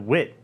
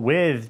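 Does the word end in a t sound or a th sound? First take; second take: t sound; th sound. First: The word ends in a t sound. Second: The word ends in a th sound. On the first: "changes to wit" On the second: "with changes to"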